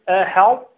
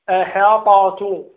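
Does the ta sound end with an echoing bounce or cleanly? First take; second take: cleanly; bounce. First: The ta is emphatic with no echoing bounce. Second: The ta ends with an echoing bounce. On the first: The speaker calls it right. "تعطيها صفة الإطباق ولكن لا تقلقل" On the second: The speaker calls it wrong. "لا تقول أحاطت"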